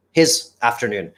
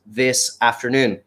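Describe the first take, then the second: First: His stressed, then afternoon falling away. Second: Said in the usual way. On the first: Real, not acted. Host correcting whose afternoon it is, stress on His. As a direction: put the weight on His, let afternoon drop.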